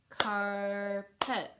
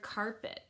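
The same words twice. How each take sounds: First: "carpet" in two drawn-out beats, car-pet; syllable by syllable. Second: Said in the usual way. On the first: Shown as a demonstration. Teacher clapping two syllables, "carpet" split car-pet. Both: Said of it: "that has two syllables".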